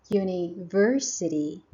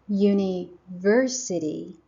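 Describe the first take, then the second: No difference in how they are said.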